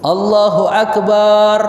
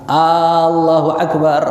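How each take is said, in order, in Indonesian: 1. Bunyi b pada Akbar yang dipanjangkan. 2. Vokal pembuka pada Allah yang dipanjangkan. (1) "tidak boleh juga memanjangi ba di dalam kalimat akbar" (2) "Kalau kita memanjangkan hamzahnya"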